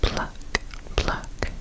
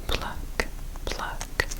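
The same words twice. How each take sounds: The two takes are said the same way.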